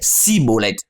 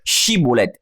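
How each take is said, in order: First: The word begins with a plain 's' sound. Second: The word begins with a 'sh' sound. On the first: This is the form that gave away someone from Ephraim. The speaker calls it wrong. "Ils disaient Siboleth" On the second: This is the form that proved someone was not from Ephraim. The speaker calls it right. "le sang che"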